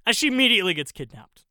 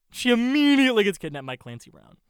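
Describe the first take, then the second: First: Fast, louder, higher outburst on "immediately"; quick exclamation. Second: "immediately" stretched out, high and loud; stress on IMMEDIATELY. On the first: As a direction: rattle off "immediately gets kidnapped" loudly. First take of repeated exasperated line. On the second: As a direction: lean long and hard on "immediately". Repeats line for incredulous emphasis. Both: Real, not acted.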